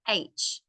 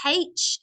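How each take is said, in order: First: The letter is said in an American accent. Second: The letter is said in an Australian accent. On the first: "Americans say H" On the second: "We say H"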